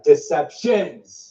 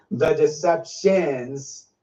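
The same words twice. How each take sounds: First: "Deceptions" said slowly, hitting the plural S; stress on deceptions. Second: "deceptions" drawn out slowly with weight; stress on deceptions. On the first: Repeating the Lord's word with a slow stressed plural. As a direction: press the final S of "Deceptions" slowly. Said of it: "Very emphasize that word, plural". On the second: Quoting the Lord's word, slow heavy stress. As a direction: lean hard and slow on "deceptions". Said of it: "Very emphasize that word". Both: Retold or imitated.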